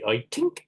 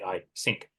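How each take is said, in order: First: The th sound is replaced by a t. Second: The th sound is replaced by an s. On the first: "The Irish might say I tink" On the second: "the Germans who don't do the T H might say I sink"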